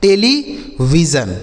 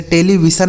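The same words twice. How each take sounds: First: टेलीविज़न slowly, with a voiced J, "televijan"; slow teacher's model of टेलीविज़न, J sound rather than S; correct pronunciation demo. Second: टेलीविज़न with an unvoiced s, "televisan"; टेलीविज़न with S where the J sound belongs; wrong pronunciation demo. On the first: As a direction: draw out टेलीविज़न, ending it in "-jan". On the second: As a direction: say टेलीविज़न wrongly, ending it in "-san". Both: Shown as a demonstration. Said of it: "इसे टेलीविज़न नहीं पढ़ना है".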